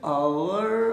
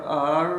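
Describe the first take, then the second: First: आवर slowly as "aa-wur"; two-syllable hour. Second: आर as a long, slow "aar"; one-syllable hour. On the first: Teacher compares pronunciations, आवर slowly with a w glide. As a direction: draw out both syllables of आवर. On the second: Teacher compares pronunciations, आर as one drawn-out syllable. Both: Shown as a demonstration. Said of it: "This is pronunciation".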